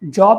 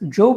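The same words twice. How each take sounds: First: The vowel is short, as in 'rob'. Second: The vowel is long, as in 'robe'. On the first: It is the ordinary word for work. "Job is a noun, a normal English word" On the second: It is the name of a biblical character. "Job is a character in the Bible"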